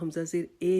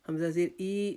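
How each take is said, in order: First: The final vowel is an e sound. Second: The final vowel is a drawn-out long i. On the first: "हम इसको हमज़ा ज़ेर ए नहीं पढ़ेंगे" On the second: "Hamza ज़ेर ई नहीं पढ़ेंगे"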